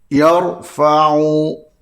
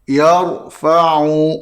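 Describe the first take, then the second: No difference in how they are said.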